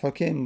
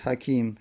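First: It uses the diminutive pattern with first vowel u. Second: It uses the plain pattern with first vowel a. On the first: The speaker calls it right. "پس حکیم بخوان" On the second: The speaker calls it wrong. "نگو حکیم، حکیم مکبره"

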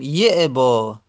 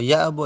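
First: The first vowel is an i sound. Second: The first vowel is an open a sound. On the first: "به کسر ابا یعبا میگیم یعبا" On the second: "با فت بخونیم"

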